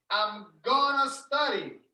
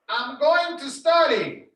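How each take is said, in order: First: Going to is squeezed together into gonna. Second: Going to is said fully, as separate words.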